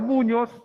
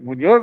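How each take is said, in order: First: The stress is on the first syllable. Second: The stress is on the last syllable. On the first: "Porque se volvería grave" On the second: "Porque es aguda y termina en Z"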